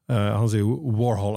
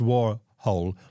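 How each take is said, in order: First: The second syllable does not sound like hole. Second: The second syllable sounds like hole. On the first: The speaker calls it wrong. "han uttaler feil" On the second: The speaker calls it right. "like a hole"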